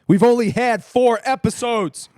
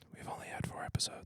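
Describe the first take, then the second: First: It is said loudly. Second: It is said more quietly.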